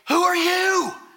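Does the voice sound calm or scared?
scared. The question sounds scared and panicked. The person asking is frightened by the intruder.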